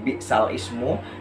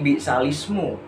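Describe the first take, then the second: First: The article syllable is said as a separate part. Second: The article syllable is dropped and the words run together. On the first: "kalau tadi"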